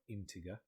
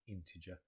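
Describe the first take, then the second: First: The word is sounded out as it is spelled. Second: The word is said with its usual pronunciation. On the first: The speaker calls it wrong. "it looks like integer" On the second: The speaker calls it right. "we pronounce it integer"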